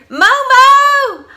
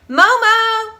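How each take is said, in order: First: It is shouted very loudly. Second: It is shouted less loudly.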